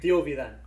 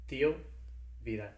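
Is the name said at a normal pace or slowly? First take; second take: normal; slowly. First: The name is said at normal speed. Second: The name is said slowly and carefully.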